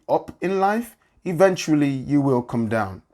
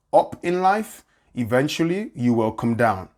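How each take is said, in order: Both takes have the same delivery.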